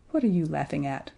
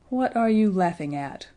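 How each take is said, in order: First: Mildly cross, restrained question; a touch of crossness, kept low-key. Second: Understated threat to stop the laughter; menacing. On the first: Woken dragon questioning the laughing boy, mildly cross. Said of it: "said very crossly". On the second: Dragon confronting Edmund outside the cave, mildly menacing. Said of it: "in a voice that made Edmund feel". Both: A narrator's reading.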